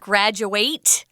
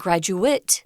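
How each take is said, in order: First: It is pronounced as the verb form. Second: It is pronounced as the noun form. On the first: It names the action of finishing school. "the verb" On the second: It names a person who finished school. "the person"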